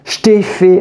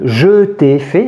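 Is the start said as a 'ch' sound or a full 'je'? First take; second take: ch sound; full je. First: The first syllable is reduced to a 'ch' sound. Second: The first syllable is a full 'je' sound. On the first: "on retrouve le je t'ai fait" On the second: "à la place de je t'ai fait"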